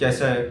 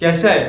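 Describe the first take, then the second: First: It is said flatly, without feeling. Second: It is said warmly, with clear feeling. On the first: The speaker is not really interested. The speaker calls it wrong. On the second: The speaker really cares about the answer. The speaker calls it right.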